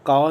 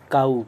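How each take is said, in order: First: The vowel is a long flat 'aa' sound. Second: The vowel glides as an 'ow' sound. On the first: The speaker calls it wrong. "इसको काव नहीं पढ़ते" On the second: The speaker calls it right. "काऊ पढ़ते"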